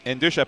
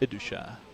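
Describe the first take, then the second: First: An n sound follows the first vowel. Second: No n sound follows the first vowel. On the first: The speaker calls it wrong. "there's no N in that first name" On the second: The speaker calls it right. "there's no N in that first name"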